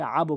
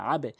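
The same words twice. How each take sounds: First: "আবো" with the b released into an o; wrong rounded bounce. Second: "আবে" with the b bounced into a short e; downward qalqalah. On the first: Teacher shows what learners must avoid, rounded release on "আবো". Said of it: "আবো বলতে পারবেন না". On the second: Teacher gives the correct reading, low e-like bounce on "আবে". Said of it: "নিচের দিকে sound". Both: Shown as a demonstration.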